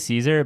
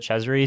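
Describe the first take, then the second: First: The name is said as Caesar. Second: The name is said as Cesare. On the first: This is how many people say it. "A lot of people say Caesar" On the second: This is how a trusted commentator says it. "Martin on Golden Trail pronounces it Cesare"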